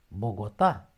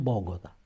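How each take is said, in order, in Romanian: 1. Accentul este pe ultima silabă. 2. Accentul nu este pe ultima silabă. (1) "pe A" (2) "nu Bogota"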